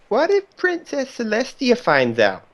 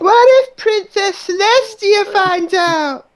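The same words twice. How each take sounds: First: It is said in a plain speaking voice. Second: It is said in a changed, wailing voice.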